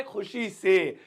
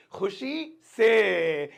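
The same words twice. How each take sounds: First: Said in the usual way. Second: "खुशी से" very slow, long final word; drawn-out repetition. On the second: Shown as a demonstration. Teacher telling students what happily means, drawn out. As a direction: stretch out "खुशी से" for learners. Teacher repeats meaning slowly.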